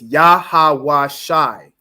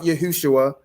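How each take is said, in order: First: It uses only ah and I sounds. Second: It uses u vowel sounds. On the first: The speaker calls it right. "it's Yahweh Shai" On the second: The speaker calls it wrong. "Christ's name in the Hebrew is not Yahushua"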